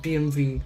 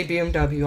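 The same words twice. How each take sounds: First: B M V, W said as "vee" like German; B M V, the W spoken as a German "V" sound; German letter reading, B M V; German BMW. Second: B M W, English letters, W as "double-u"; B M W the American way, W as "double-u"; English letter names B M W; saying BMW. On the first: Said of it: "it said B M V". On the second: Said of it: "I say B M W". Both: Shown as a demonstration.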